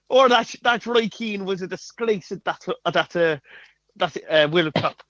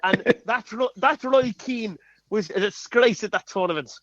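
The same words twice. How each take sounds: First: The same light Irish lilt, repeated; Irish Mick McCarthy. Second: A light Irish lilt on the Mick McCarthy impression. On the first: Retold or imitated. Asked to repeat the impression, a light Irish voice. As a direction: do the Irish manager again, lightly. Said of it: "Do it again". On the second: Mimicking the Irish manager for a guessing game, lightly Irish. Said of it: "that was me doing an impression".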